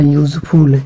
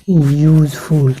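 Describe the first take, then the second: First: Said in the usual way. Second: useful drawn out slowly, yoo-sound first; teacher slowly sounding out useful; slow model word. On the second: Shown as a demonstration. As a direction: model useful carefully for students. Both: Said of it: "इसलिए यहाँ पे L होगा".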